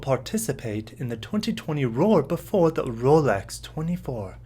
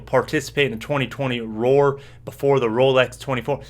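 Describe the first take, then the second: First: It is said in a put-on British accent. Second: It is said in his normal American accent.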